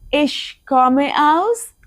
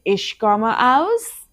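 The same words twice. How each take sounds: First: Very slow repeat rising on aus. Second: Very slow phrase with a rise on aus; slow model phrase. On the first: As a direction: model it again, open-ended. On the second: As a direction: leave it open for the place name. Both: Shown as a demonstration.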